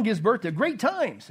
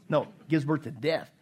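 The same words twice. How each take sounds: First: Slow, joking slip with GREAT TIMES stretched; mock wrong word. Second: Said in the usual way. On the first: Shown as a demonstration. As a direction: deliberately say "great times" as a teasing mistake.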